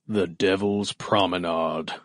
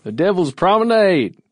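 First: It is said in a plain, ordinary voice. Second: It is said in a Southern gentleman accent.

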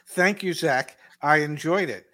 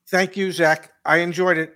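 First: It is said in a warmer, more sincere way. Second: It is said in a flat, mechanical way. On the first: The thanks is meant sincerely. The speaker calls it right. "let me try it again" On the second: The thanks may not be meant. The speaker calls it wrong. "That sounded a little robotic"

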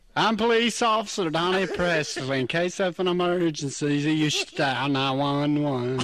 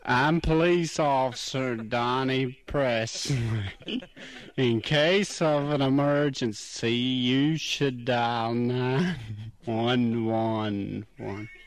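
First: The line is said fast. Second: The line is said slowly.

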